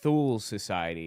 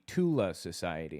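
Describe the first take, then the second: First: The name begins with a th sound. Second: The name begins with a plain t sound.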